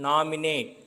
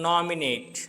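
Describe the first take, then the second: Both takes have the same delivery.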